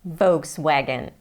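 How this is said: It is said with American English sounds. "in the U S, most of the people say Volkswagen"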